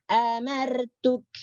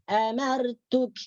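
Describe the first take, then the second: No difference in how they are said.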